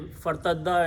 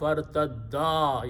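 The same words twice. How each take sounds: First: The final vowel is cut short. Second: The final vowel is stretched out long. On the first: One person returned. The speaker calls it wrong. "if you just say fartadda and you went on" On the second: Two people returned. The speaker calls it right. "So you have to say fartadda. You have to uh, stretch this alif"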